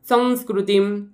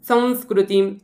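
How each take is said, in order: Both takes have the same delivery.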